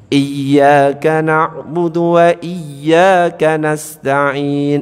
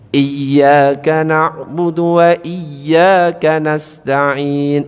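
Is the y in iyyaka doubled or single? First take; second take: doubled; doubled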